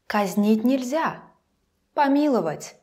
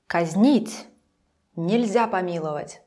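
First: There is a pause after the second word. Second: There is a pause after the first word. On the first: It is not allowed to execute this person. "Or, we put it here" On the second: It is not allowed to pardon this person. "Let's put comma here"

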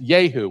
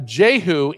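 First: The name begins with a Y sound. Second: The name begins with a J sound.

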